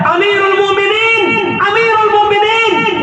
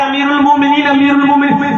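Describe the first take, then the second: First: High, carrying call for the caliph. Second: Said in the usual way. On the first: Retold or imitated. Slave calling out to the caliph from outside. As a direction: shout the title to be heard far off. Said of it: "चीख रहा है". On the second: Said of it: "तुम चिल्ला रहे थे".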